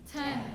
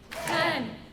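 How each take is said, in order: First: It is said in a normal talking voice. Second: It is said in a loud voice.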